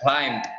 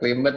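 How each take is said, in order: First: The ending is not said as an extra syllable. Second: The ending is said as an extra syllable. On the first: The speaker calls it right. "C E D-nya nggak dibaca" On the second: The speaker calls it wrong. "bacanya bukan clean bed ya"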